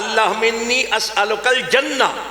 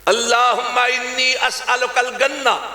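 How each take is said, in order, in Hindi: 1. आखिरी शब्द j की आवाज़ से शुरू होता है। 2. आखिरी शब्द सख्त g की आवाज़ से शुरू होता है। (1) "वो कह रहा था" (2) "मिस्र के लहजे के अंदर जीम को गाफ में बदल देते"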